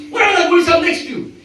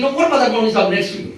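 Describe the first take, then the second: First: Mock repeat. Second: Said in the usual way. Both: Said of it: "He's saying".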